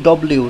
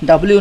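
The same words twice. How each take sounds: First: "ডব্লিউ" with a rounded o vowel; correct W pronunciation. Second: "ডাব্লিউ" with an open a vowel; wrong W pronunciation. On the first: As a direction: say "ডব্লিউ" as daw-bliu. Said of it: "এটা হবে ডব্লিউ". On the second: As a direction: say "ডাব্লিউ" as da-bliu. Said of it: "ডাব্লিউ না". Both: Shown as a demonstration.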